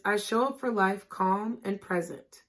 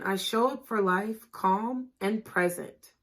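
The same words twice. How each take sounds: First: Said in the usual way. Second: Slower repeat. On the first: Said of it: "The affirmation is". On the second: Shown as a demonstration.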